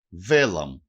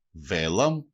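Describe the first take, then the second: First: Βέλαμ stressed on Βέ, falling; penultimate stress. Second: Βέλαμ stressed on Βέ, rising at the end; penultimate stress. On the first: Teacher showing two-syllable words to learners, first-syllable stress, falling. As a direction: hit the first syllable of Βέλαμ, then drop. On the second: Teacher repeating the example for learners, first-syllable stress, rising. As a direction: stress the start of Βέλαμ, lift the ending. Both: Shown as a demonstration. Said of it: "τονίζεται πάντοτε η παραλίγουσα".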